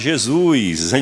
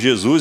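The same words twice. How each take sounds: First: The name is said in a Bahian accent. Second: The name is said in a standard accent. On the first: "aqui na Bahia a gente melhora ainda que bota Jesus" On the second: "Jesus é o correto"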